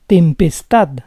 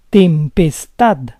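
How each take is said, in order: First: Said in the usual way. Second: Tempestad split as tem-pes-TAD; syllable by syllable. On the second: Shown as a demonstration. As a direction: say Tempestad in parts, stressing TAD. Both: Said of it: "the stress is on the last syllable".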